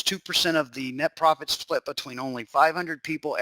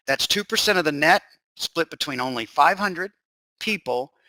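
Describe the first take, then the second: First: Said in the usual way. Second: Deliberate restatement with pauses before key words; slower repeat. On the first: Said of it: "If I said that too fast". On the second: Shown as a demonstration. Webinar host repeats the profit split for listeners, slower and deliberate. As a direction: go over it slowly, pausing before PEOPLE. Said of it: "If I said that too fast, I'll go over it again".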